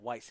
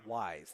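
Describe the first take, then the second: First: The name ends with a hissed s sound. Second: The name ends with a buzzing z sound. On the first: The speaker calls it wrong. "I've been saying Weiss" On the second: The speaker calls it right. "it's Wise. That's how you pronounce it"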